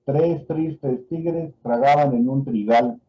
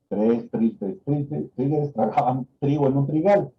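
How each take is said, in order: First: "Tres tristes tigres tragaban en un trigal" said slowly, every word spelled out; slow dictation. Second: Said in the usual way. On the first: Shown as a demonstration. Doctor dictating the tongue twister to a patient, slow and careful. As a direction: read it slowly for the patient to repeat. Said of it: "Repite la siguiente frase". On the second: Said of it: "el paciente tiene que repetir".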